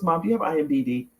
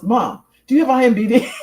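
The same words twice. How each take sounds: First: Quick, offhand retold question; casual question. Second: Higher, louder repeated question through laughter; laughing retelling. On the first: Son asking his mom about her credits page, casually. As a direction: toss it out casually in passing. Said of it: "he said it really casually". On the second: Retold or imitated. Mom retelling her son's repeated question, laughing. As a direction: imitate his insistent asking while cracking up. Retells son asking again, cracking up.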